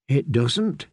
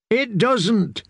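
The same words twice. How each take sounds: First: Said in the usual way. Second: High, squeaky, forced out; squeak. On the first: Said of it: "Sam wanted to tell him". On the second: A narrator's reading. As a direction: squeak the words out in fright. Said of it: "he managed to squeak".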